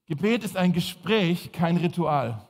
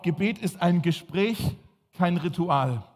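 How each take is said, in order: First: Repeated for note-taking; slow, clear repeat to write down; dictating. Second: Slow dictation pace; dictating. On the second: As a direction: say it slowly so they can write. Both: Shown as a demonstration. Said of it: "schreibt mal auf".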